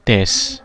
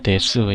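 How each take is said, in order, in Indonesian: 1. Vokal u dihilangkan, berakhir pada s. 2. Vokal u jelas diucapkan setelah s. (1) "dibaca des" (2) "bukan dibaca desu ya"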